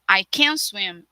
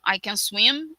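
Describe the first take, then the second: First: The word can is strong and stressed. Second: The word can is weak and unstressed. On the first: The speaker is unable to swim. "é a negativa" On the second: The speaker is able to swim. "é afirmativa"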